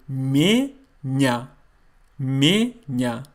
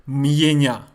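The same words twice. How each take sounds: First: "Меня" slowly as me-nya, no Y after M; correct pronunciation. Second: "Меня" with a Y glide after M, m-ye-nya; mispronunciation demo. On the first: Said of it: "I say". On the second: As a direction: insert a separate "ye" into "Меня". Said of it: "I don't say". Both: Shown as a demonstration.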